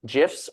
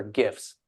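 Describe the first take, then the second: First: "gifs" said as "jifs", with a soft g; soft-g pronunciation. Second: "gifs" said with a hard g, as in "gifts"; hard-g pronunciation. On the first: Host asks panelist how it's pronounced, first option "gifs" with soft g. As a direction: start "gifs" with a j sound. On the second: Host gives panelist second option, "gifs" with hard g. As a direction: start "gifs" with the g of "go". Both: Shown as a demonstration. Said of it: "How is it pronounced?".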